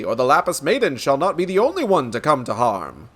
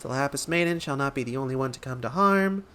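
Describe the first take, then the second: First: Lightly voiced pompous gentleman, emphatic; resolute inspector. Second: Softer, light-voiced recitation; assistant reciting. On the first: Inspector vowing to protect the Lapis Maiden, resolute. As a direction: declare it with heroic weight. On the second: Nashu repeating the inspector's words back, light and soft. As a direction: repeat it lightly, like taking down a note.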